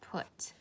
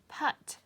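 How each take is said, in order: First: It is said with its usual spoken vowel. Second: It is sounded out strictly from its letters. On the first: The speaker calls it right. "But this time we're gonna pronounce it" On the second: The speaker calls it wrong. "if you were to stretch it out, it would say"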